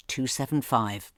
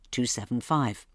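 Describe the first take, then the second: No difference in how they are said.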